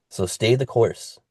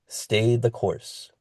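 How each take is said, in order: First: Said in the usual way. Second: Slow emphatic repeat. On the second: Real, not acted. Repeated slowly, softer.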